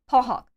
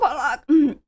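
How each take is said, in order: First: The second syllable starts with an h sound. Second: The second syllable starts without an h sound. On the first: The speaker calls it right. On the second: The speaker calls it wrong. "not Pollock"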